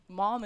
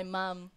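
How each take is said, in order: First: "Mom" said the American way, open ah vowel. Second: "mom" said the New Zealand way, as "mum". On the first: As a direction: say "Mom" with an "ah", to rhyme with balm. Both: Shown as a demonstration. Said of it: "Mom is actually kinda weird".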